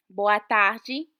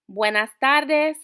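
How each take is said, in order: First: Tarde as tah-djee, with a rising end; Portuguese boa tarde. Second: Buenas tardes said the Spanish way, louder and slower. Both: Shown as a demonstration. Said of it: "contrast Spanish with Portuguese".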